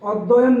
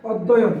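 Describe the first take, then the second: No difference in how they are said.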